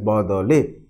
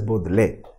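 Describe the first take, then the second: First: The word is pronounced as badale. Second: The word is pronounced as bodle. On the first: The word is a postposition meaning in exchange of. "when it acts as a postposition, it is pronounced as badale" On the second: The word is a verb meaning changing. "When it acts as a non-finite verb, it is usually pronounced as bodle"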